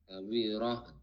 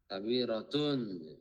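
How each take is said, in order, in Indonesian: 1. Kata ini berakhir dengan bunyi h yang lembut. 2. Kata ini berakhir dengan akhiran -tun penuh.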